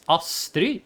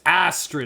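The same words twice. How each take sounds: First: The name is said with a Norwegian pronunciation. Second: The name is said with an English pronunciation. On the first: The speaker calls it right. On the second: The speaker calls it wrong.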